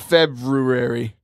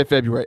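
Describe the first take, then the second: First: "February" said Feb-roo-ary, first r sounded; spelling pronunciation. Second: "February" said Feb-yoo-ary, no first r; everyday pronunciation. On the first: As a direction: sound both r's in "February". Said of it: "It's definitely spelled February". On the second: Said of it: "but we all say February". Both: Shown as a demonstration.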